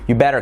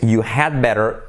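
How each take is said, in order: First: The word 'had' is left out entirely. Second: The word 'had' is said in full. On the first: "you don't even have to say you'd. Just you" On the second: "it's you had better"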